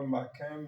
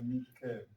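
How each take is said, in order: First: The first vowel sounds like 'a'. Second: The first vowel sounds like 'i'. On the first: The speaker calls it wrong. "c'est pas Makem" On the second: The speaker calls it right. "mais c'est Mikem"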